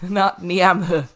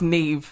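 First: The name gets an English-style reading. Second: The name gets its Irish pronunciation. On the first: The speaker calls it wrong. "not Niamh" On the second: The speaker calls it right. "It's Niamh"

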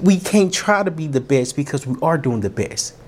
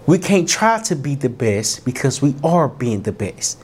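First: It is said at a normal speed. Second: It is said a little more slowly.

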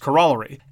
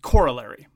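First: The stress is on the second syllable. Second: The stress is on the first syllable. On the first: This is the traditional British pronunciation. "this is a word that I use and you don't use" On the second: This is the American pronunciation. "Americans pronounce it corollary. And that's the American pronunciation. That's the emphasis on the first syllable"

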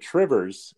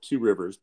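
First: It is run together into one word. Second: It is said as two separate words.

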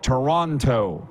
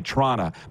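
First: Every syllable of the word is clearly pronounced. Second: The word is squeezed into two short syllables. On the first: The speaker calls it right. "how to enunciate words like Toronto" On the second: The speaker calls it wrong. "unless you're Don Cherry and say Trana"

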